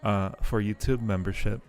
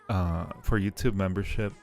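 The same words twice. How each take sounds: The two takes are said the same way.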